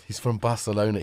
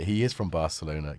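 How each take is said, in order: First: Said in the usual way. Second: "is" given full weight, not contracted; stress on IS. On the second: Real, not acted. Streamer confirming the cat's origin, emphasis on "is". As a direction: lean on "is" to confirm it.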